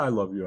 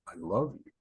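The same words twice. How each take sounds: First: It is said quickly and mechanically, without feeling. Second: It is said slowly and warmly, with feeling.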